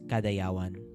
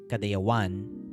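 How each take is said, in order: First: The last syllable is not stressed or drawn out. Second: The last syllable is stressed and drawn out slowly. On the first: This is how local people say it. "people here just say it as kadayawan" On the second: This is how the source language says it. "with the emphasis on the one. ... kadaya, like you say it really fast, and then one is like really slow"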